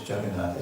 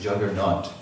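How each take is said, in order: First: The name is said with its original pronunciation. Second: The name is said with the British pronunciation.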